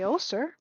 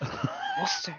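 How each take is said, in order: First: It is said in a plain, undramatic way. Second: It is said in a very dramatic way.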